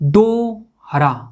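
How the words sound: The word is split into two parts.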